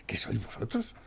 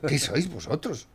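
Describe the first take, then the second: First: Hushed unvoiced whisper, much softer; a scornful whisper; whispered contempt. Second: Voiced again, slowed and deliberate; slow accusing question; slow scornful repeat. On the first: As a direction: breathe the question out in disgust. Ranting at government, drops to whisper. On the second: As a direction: repeat it aloud, slowly, with contempt. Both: Real, not acted.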